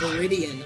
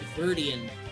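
First: The second 'i' sound is pronounced. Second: The second 'i' sound is left out. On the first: The speaker calls it right. "somebody told me it was" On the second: The speaker calls it wrong. "I never saw that second I, and I always pronounced it"

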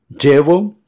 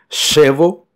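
First: It begins with a dj sound. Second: It begins with a sh sound. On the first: "como si fuese un D J del portugués" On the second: "equivale a un C H do portugués"

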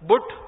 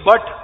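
First: The vowel sounds like the one in put. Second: The vowel sounds like the one in cut. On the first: This is how the spelling would be read by analogy. "पीयूटी पुट तो बीयूटी बुट यही होना चाहिए" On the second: This is how the word is actually said. "अगर बीयूटी बट"

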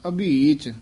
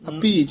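First: The middle consonant is a bh sound. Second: The middle consonant is not a bh sound. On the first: The speaker calls it right. "ਅਭੀਚ ਭੱਬਾ ਬੋਲਣਾ" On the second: The speaker calls it wrong. "ਅਭੀਚ ਨਹੀਂ ਕਹਿਣਾ"

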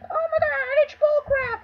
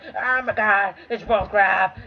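First: It is said in a high, squeaky kid's voice. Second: It is said in a fairly normal voice.

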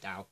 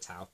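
First: The word begins with a soft d sound. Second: The word begins with a hard t sound. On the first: "You pronounce it Dao" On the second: "Although I call it Tao"

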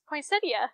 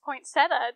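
First: No T sound is heard after 'poin'. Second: A T sound is heard after 'poin'. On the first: The speaker calls it right. "There's no T" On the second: The speaker calls it wrong. "so I'm saying point"

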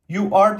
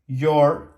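First: Both words are said fully and separately. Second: The words merge into one short syllable. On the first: "You are diyebilirim" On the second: "diye kısaltabilirim"

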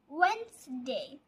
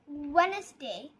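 First: The first d is silent, said as two syllables. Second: The first d is pronounced, said as three syllables. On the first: The speaker calls it right. "The next day is Wednesday" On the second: The speaker calls it wrong. "Not Wednesday"

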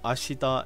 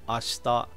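First: The vowel after 'sh' is fully sounded. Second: The vowel after 'sh' is clipped. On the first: The speaker calls it wrong. "instead of ashita" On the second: The speaker calls it right. "the E sound gets kind of clipped a bit"

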